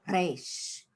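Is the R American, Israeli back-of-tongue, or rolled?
rolled. The R is rolled with the tongue tip.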